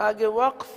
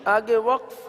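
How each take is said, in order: No difference in how they are said.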